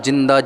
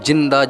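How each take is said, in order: The two takes are said the same way.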